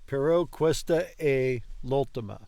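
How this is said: The phrase ends with a final, falling close. The speaker calls it right.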